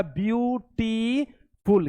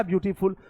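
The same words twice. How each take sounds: First: "ब्यूटीफुल" stretched very slowly into three separate beats; syllable by syllable. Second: Said in the usual way. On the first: Shown as a demonstration. Teacher counting syllables for pupils, "ब्यूटीफुल" broken slowly into parts. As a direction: draw out each syllable of "ब्यूटीफुल", pausing before the last. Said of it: "दो बार में उसका हम उच्चारण करते हैं, तीन बार में". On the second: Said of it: "क्या लिखा?".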